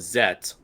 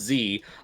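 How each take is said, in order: First: The letter is said as 'zet'. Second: The letter is said as 'zee'. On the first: This follows the English dub's pronunciation. "I just call it Zet only because that's what they say call it in the English dub" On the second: This is the other person's way of saying it. "you call it Z"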